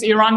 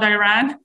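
First: The name is said unlike the usual English way. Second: The name is said the usual English way. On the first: This is how the country's name should be said. The speaker calls it right. "tell everyone that it's Iran" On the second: This is how most people say the country's name. The speaker calls it wrong. "not Iran. ... everyone says Iran"

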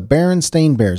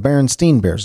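First: The name ends with a 'stain' sound. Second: The name ends with a 'steen' sound. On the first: This is the actual name. The speaker calls it right. "Nope, it's the Berenstain Bears" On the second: This is the version listeners wrongly remember. The speaker calls it wrong. "You think it's the Berenstain Bears"

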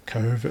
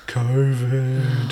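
First: It is said in his normal voice. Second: It is said in a put-on voice.

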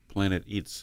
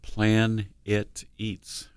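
First: The words are said fast and run together. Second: The words are said slowly and kept separate.

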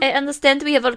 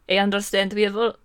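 First: It is spoken with a put-on French accent. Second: It is spoken in the speaker's usual accent.

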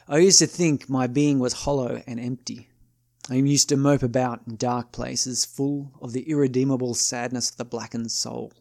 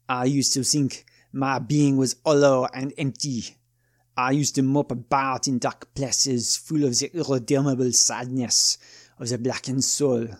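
First: It is read in the speaker's normal voice. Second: It is read in a put-on French accent.

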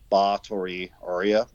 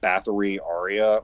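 First: Bathory is said the original Hungarian way. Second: Bathory is said the common anglicized way. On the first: The speaker calls it right. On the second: The speaker calls it wrong.

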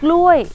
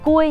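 First: The first consonant is followed by an L sound. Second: The first consonant has no L sound after it. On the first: The speaker calls it right. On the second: The speaker calls it wrong.

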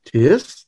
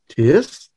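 First: The pitch rises on the word. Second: The pitch rises on the word.

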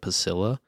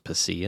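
First: The word is pronounced the English way. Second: The word is pronounced the Spanish way. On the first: The speaker calls it wrong. "instead of pasilla" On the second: The speaker calls it right. "since it's a Mexican beer, it's pronounced pasilla"

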